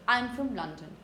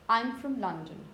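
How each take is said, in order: First: The word 'from' is said weak and reduced. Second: The same.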